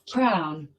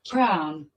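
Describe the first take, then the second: The two takes are said the same way.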